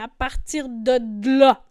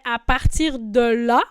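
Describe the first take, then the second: First: The d consonant is pronounced doubled. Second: The d consonant is pronounced once. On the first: "ici, on a doublé" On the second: "Normalement, on dirait"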